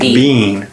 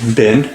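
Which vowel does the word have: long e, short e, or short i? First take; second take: long e; short i. First: The vowel is a long e, as in see. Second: The vowel is a short i, as in sit. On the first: "pronounce it with a long E" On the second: "with a short I as in sit"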